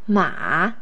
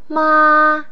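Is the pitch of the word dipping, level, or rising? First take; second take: dipping; level. First: The pitch falls low, then rises again. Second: The pitch stays high and level throughout. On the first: It means horse. "the third tone is the falling rising tone" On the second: It means mother. "the first tone is the flat tone... in a high steady voice"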